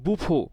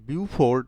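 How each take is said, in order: First: It starts with boo and ends in fo. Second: It starts with byoo and ends in ford. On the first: The speaker calls it right. "আসলে এর উচ্চারণ হচ্ছে বুফো" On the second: The speaker calls it wrong. "বিউফোর্ড মনে হলেও"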